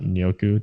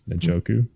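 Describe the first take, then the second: First: The J sound is silent. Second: The J sound is clearly pronounced. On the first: The speaker calls it wrong. "it's not Nyoku" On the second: The speaker calls it right. "The J is not silent. It's Njoku"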